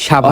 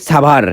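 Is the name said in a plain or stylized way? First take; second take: plain; stylized. First: The name is said in the ordinary local way. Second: The name is said in a fancy, stylized way. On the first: This is the form heard since childhood. "ছোটবেলা থেকে শুনতে শুনতে বড় হইছি" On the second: This is a newly introduced, showy form. "নতুন নতুন পরিচয় করাইবার লইছে"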